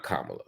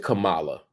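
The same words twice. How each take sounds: First: Kamala stressed on the first syllable, KAH-muh-la; correctly pronounced Kamala. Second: Kamala stressed on the second syllable, kuh-MAH-la; mispronounced Kamala. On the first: Shown as a demonstration. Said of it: "put an accent on the first syllable". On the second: Retold or imitated. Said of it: "intentional in your mispronunciation".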